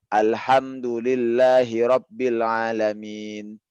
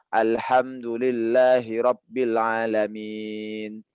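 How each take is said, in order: First: The final long vowel is held for two counts. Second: The final long vowel is held for four counts. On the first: "itu dua"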